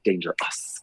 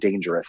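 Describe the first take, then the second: First: The word is said in an exaggerated 80s style. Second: The word is said in a plain, ordinary way. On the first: "it's like dangerous. ... this extra 80s moment" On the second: "instead of saying dangerous"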